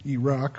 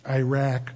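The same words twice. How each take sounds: First: "Iraq" said as ee-ROCK; alternative pronunciation. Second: "Iraq" said as eye-RACK; first pronunciation. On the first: Preacher offering the other way to say "Iraq", ee-ROCK. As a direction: say "Iraq" with an ee start and rock ending. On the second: Preacher offering one way to say "Iraq", eye-RACK. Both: Shown as a demonstration. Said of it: "whichever way you want to say it".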